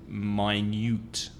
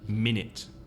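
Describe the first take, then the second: First: The vowels sound like 'eye' then 'you'. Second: Both vowels are short 'i' sounds. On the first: It means very small. "in the adjective you've got two separate vowel sounds" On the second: It names a unit of time. "the vowel sound is the same in both syllables"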